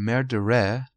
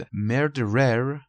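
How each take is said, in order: First: Murderer with a British silent final R; British pronunciation. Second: Said in the usual way. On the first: Shown as a demonstration. Teacher showing learners the British variant, British pronunciation. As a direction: say murderer the British way, dropping the last R. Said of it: "توی تلفظ بریتانیایی". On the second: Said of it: "یا murderer توی تلفظ بریتانیایی".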